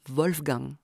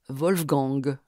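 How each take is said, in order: First: It ends in a velar nasal consonant sound. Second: It ends in a nasal vowel then g. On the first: "l'occlusion nasalisée produit le ng de l'allemand Wolfgang" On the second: "Le A devient an et le ng, l'occlusive sonore buccale g"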